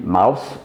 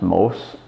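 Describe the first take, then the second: First: The name is pronounced the German way. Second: The name is pronounced the French way. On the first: "would be mouse in German" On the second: "it's pronounced Mauss in the French way"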